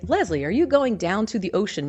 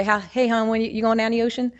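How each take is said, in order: First: Said in the usual way. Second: Easygoing Baltimore hon talk, lightly done; casual local greeting with hon, Baltimore style; Baltimore dialect. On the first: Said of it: "what we're saying is". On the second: Shown as a demonstration. Greeting Leslie about the beach, in light Baltimore dialect. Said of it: "I might be talking to Leslie and say".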